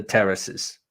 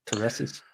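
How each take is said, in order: First: Said in the usual way. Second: Terraces? softly with a rising check; questioning the word. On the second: Shown as a demonstration. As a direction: ask Terraces? quietly, unsure of the word.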